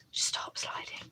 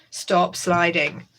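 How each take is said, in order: First: Breathy whisper to the sliding pile. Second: Said in the usual way. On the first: Real, not acted. Muttering to her sliding papers, whispered. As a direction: hush them like you're begging them to stay put.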